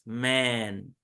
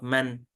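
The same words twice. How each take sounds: First: The vowel is held long. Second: The vowel is cut short. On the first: The speaker calls it right. "this makes it a lo longer. So we don't say just man, it's man" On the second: The speaker calls it wrong. "not man"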